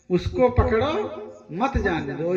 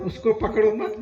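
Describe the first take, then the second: First: उसको पकड़ो rising, break, then मत जाने दो; pause after पकड़ो. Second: उसको पकड़ो मत run together, stop after मत; pause after मत. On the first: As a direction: split before मत, meaning catch him. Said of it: "उसको पकड़ो माने उसको पकड़ लो". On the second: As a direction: attach मत to पकड़ो, meaning don't catch. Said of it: "वो हलंत मत पे लगा दिया". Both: Shown as a demonstration.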